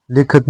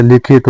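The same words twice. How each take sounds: First: लिखित said as "likhat"; wrong vowel. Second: लिखित with short i twice; correct vowel. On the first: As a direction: flatten the second i of लिखित to a. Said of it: "नहीं होता है". (लिखित को लिखत जैसा) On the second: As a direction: say लिखित as "likhit". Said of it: "होता है". (लिखित में शुद्ध इ) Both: Shown as a demonstration.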